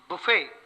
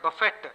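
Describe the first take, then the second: First: The final T sound is silent. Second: The final T sound is pronounced. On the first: A table with food set out. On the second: To knock about or batter.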